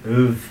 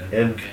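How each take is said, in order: First: The vowel sounds like 'uh', giving 'uv'. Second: The vowel sounds like 'ih', giving 'iv'. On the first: This is how some other speakers say it. "Some people would pronounce it uv" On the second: This is the Ulster way of saying it. "in the Ulster Irish, we would say an iv"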